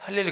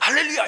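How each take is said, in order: First: It is said quietly and flatly. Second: It is said loudly and excitedly.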